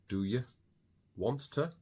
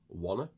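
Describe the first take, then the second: First: All four words are said in full. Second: The words shrink to the single word wanna. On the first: "Do you want to becomes wanna" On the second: "becomes wanna"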